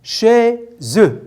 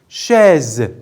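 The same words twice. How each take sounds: First: "Chaise" split chai, pause, se sounded as "ze"; syllable by syllable. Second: Said in the usual way. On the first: Shown as a demonstration. Teacher recapping syllable counts for pupils, "Chaise" as chai... ze. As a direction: break "Chaise" into two firm beats. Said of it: "Deux syllabes aussi".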